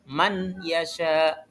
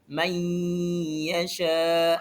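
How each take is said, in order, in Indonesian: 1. Huruf n dibaca terpisah dari y. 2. Huruf n dilebur ke dalam y. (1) "tidak boleh dibaca man yasha" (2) "harus dileburkan ke huruf ya"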